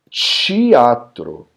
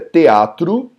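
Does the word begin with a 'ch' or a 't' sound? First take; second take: ch; t. First: The word begins with a ch sound. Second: The word begins with a plain t sound. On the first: "os cariocas pronunciam teatro" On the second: "a palavra em português é teatro"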